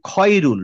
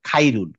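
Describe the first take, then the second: First: The first vowel is a rounded 'aw' sound. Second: The first vowel is an open 'ah' sound. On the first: The speaker calls it right. "বলবো হচ্ছে খয়রুল" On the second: The speaker calls it wrong. "Not খাইরুল"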